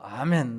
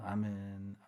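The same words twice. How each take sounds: First: It is said at a raised, high pitch. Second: It is said at a plain, low pitch.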